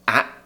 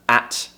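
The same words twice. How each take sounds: First: The final T is dropped. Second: The final T is pronounced.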